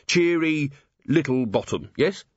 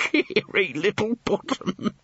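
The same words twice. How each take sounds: First: Said in the usual way. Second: Slow, higher, through suppressed laughter; laughing. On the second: A narrator's reading. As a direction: say the name while giggling. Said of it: "him laughing".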